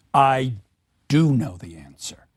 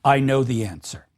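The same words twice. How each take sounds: First: "do" said low with a falling, weighty stress. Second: Said in the usual way. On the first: Shown as a demonstration. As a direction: lean hard on "do" to insist. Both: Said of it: "This emphasis on do".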